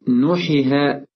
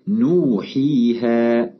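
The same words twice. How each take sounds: First: The long vowels are cut too short. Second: The long vowels are held for a normal length. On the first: The speaker calls it wrong. "بأن ننقص المد عن حركتين" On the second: The speaker calls it right. "قد مددناها مدا طبيعيا"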